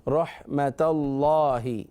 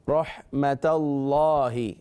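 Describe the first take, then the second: No difference in how they are said.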